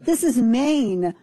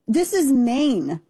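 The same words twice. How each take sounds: First: This is Maine slow with weight on is; slow, pointed repeat of This is Maine; drawn out again. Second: This is Maine slowed right down, is leaned on; slow, pointed this is Maine; drawn out. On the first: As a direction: hammer home This is Maine slowly. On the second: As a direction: spell it out: this... is... Maine. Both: Shown as a demonstration. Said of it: "emphatic repetition".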